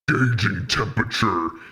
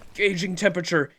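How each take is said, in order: First: It is said in a monster voice. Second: It is said in a normal voice.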